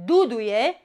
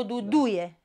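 First: "duduie" stressed at the start, DU-du-ie; stress on first DU. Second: "duduie" stressed du-DU-ie; stress on second DU. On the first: Teacher reading the verb, "duduie" stressed on first DU. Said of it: "primul du". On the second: Teacher reading the noun, "duduie" stressed on second DU. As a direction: put the weight on the second DU of "duduie". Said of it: "a doua". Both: Shown as a demonstration.

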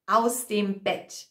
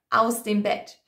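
Both takes have the same delivery.

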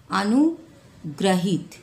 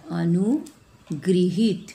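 First: अनुग्रहित said slowly with "ग्र" as gra, a-nu-gra-hit; wrong form read out. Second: अनुगृहित said very slowly with "गृ" as gri, a-nu-gri-hit; correct pronunciation. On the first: Teacher reading the misspelled word aloud to the class, slow. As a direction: drawl out अनुग्रहित with a plain "gra". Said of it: "ये गलत है". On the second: Teacher modelling the correct word for the children, very slow and deliberate. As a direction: stretch out अनुगृहित, pronouncing the ऋ as "ri". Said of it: "नहीं होगा अनुगृहित". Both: Shown as a demonstration.

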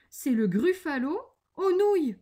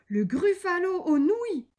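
First: Louder, higher, with relish; playful menace. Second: High, loud echo in disbelief; alarmed cry. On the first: Acted. The mouse names its favourite dish to the gruffalo, relishing menace. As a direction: announce the dish with mock threat. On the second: A narrator's reading. The gruffalo hears he is the dish, alarmed cry. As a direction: cry it out, aghast. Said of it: "cria le gruffalo".

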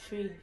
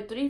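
First: "tree" with plain t for th; island pronunciation. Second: Said in the usual way. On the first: Shown as a demonstration. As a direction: say "tree" meaning three. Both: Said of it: "Number three for us is tree".

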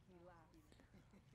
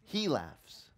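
First: Breathy whisper of he laughs; hushed reveal. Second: Said in the usual way. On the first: Shown as a demonstration. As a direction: whisper the name's meaning. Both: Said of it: "What do they name the boy".

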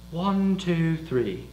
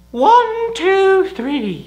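First: Said in the usual way. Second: Loud, very high-pitched count; high, raised voice, easing off at the end. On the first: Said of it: "let's try male voice count over three". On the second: Shown as a demonstration. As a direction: pitch it right up and call it out. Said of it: "Just pitch up your voice".

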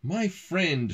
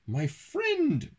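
First: Restrained read-aloud shout; mild storybook shout. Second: Very high, gleeful storybook exclamation; high character voice, mock chortle without real laughter; chortled. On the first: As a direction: call it out as the dragon, moderately raised. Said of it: "shouted Drum". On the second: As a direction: pitch it way up high for the boy. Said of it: "chortled James". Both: A narrator's reading.

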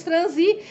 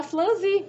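First: Said in the usual way. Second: "flanzi" with L replacing R, higher pitched; teasing quote of "flanzi" with an L; mispronounced franzir. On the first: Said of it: "porque eu disse". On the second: Retold or imitated. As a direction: imitate the slip "flanzi", fl- at the start. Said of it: "dizendo, "Não vai falar flanzi".

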